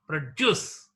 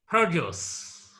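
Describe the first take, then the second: First: The stress is on the second syllable. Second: The stress is on the first syllable. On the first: It is used as a verb. "The stress is marked on the second syllable here" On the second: It is used as a noun. "Noun. It takes stress on the first syllable"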